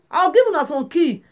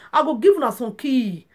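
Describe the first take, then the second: First: Emphatic repeat. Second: Said in the usual way. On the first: Shown as a demonstration. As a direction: repeat it with more force to drive it home. Repeats the promise, louder.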